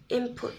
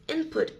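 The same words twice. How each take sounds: First: "input" with the n turned to m, "imput"; assimilated pronunciation. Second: Said in the usual way. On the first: Shown as a demonstration. Teacher shows the casual-speech form of input, assimilated pronunciation. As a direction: say "input" as "imput", lips closing early for the p. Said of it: "changes to match the P sound". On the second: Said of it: "often pronounced as input".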